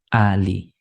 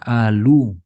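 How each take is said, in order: First: The word ends with an i vowel. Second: The word ends with a u vowel. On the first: The speaker calls it right. "tapi ali" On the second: The speaker calls it wrong. "nggak dibaca alu"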